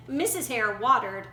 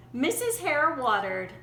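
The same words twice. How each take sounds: The two takes are said the same way.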